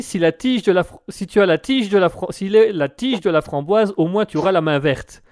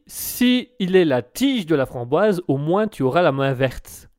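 First: Tripping over the words, restarting twice; a stumbling first read of the listener's pun; stammered. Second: Slow, deliberate reading, each word laid out; careful reread. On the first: Real, not acted. Host stumbling while reading a listener's message aloud. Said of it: "je l'ai un peu bégayé". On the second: Shown as a demonstration. Host slowly rereading the pun for his co-host. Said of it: "je vais peut-être te la relire".

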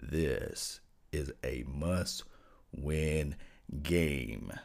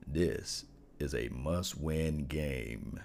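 First: Very low, very slow bass rumble; extremely deep bass voice. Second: Low, slow, heavy delivery; deep voice. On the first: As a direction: sink into your deepest bass and drag it out. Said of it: "I'm gonna get into my deepest voice I can let you guys hear". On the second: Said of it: "I'm gonna get into my deepest voice". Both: Shown as a demonstration.

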